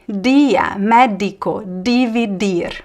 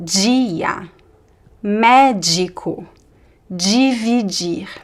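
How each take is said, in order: First: The d sounds like a plain hard d. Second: The d sounds like the j in jeans. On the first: Some other speakers use this accent. "some people would say" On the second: This is the speaker's own accent. "in my accent, the letters D I, D E are always pronounced as G"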